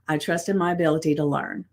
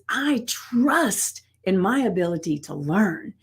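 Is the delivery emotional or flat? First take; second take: flat; emotional. First: It is said flatly, without feeling. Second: It is said with strong energy and feeling. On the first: The words are recited without being believed. The speaker calls it wrong. "it is not giving it that that feel that actually makes it real" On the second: The words are felt and believed. The speaker calls it right. "you would say it with power"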